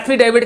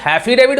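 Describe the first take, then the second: First: The word begins with a plain vowel. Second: The word begins with an added h sound. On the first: This is the standard pronunciation. The speaker calls it right. "एफिडेविट की जगह पे" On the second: This mocks how a politician says it. The speaker calls it wrong. "हैफिडेविट बोलते हैं"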